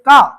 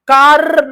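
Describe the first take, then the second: First: The word ends without any r sound. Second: The word ends with a clear r sound. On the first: The speaker calls it right. "आर यहाँ पे silent है" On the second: The speaker calls it wrong. "र ऐसे नहीं बोलना आपको"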